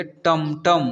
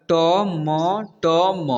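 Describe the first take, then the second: First: Said in the usual way. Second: टम, टम as long separate letters; टम, टम broken up letter by letter; spelled out letter by letter. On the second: Shown as a demonstration. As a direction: sound out each letter of टम, टम slowly. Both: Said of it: "इसे पढ़ेंगे".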